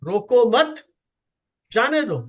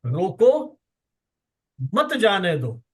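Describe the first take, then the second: First: "रोको मत" together, long pause, then "जाने दो"; pause after second word. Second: "रोको" alone, long pause, then "मत जाने दो"; pause after first word. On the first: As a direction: break after "रोको मत" so it means don't stop him, let him go. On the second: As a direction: break after "रोको" so it means stop him, don't let him go. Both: Shown as a demonstration. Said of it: "एक comma लगा करके उसका अर्थ बदल दिया".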